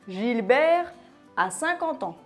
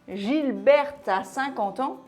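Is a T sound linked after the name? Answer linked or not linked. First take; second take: not linked; linked. First: No T sound links the name to the verb. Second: A T sound links the name to the verb. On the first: The name is the masculine Gilbert. The speaker calls it right. "Après un nom propre" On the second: The name is the feminine Gilberte. The speaker calls it wrong. "Si on faisait la liaison"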